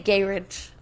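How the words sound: It is said with a British pronunciation. "They say garage"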